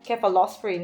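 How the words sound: It is said the Australian way.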